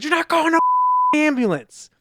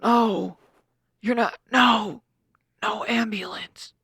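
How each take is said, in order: First: High, loud indignant yell; retold shout. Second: Slow, halting mock protest; mimicking Jeremy. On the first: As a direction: shout down the ambulance idea. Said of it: "That's not how Jeremy said it". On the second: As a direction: drag it out like a stubborn patient. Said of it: "This is how Jeremy said it".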